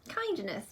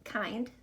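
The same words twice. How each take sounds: First: Said in the usual way. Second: "Kindness" softly broken in two, kind, pause, ness; split into syllables. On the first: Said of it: "How many syllables are in the word". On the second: Shown as a demonstration. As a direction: count out "Kindness" syllable by syllable with a gap.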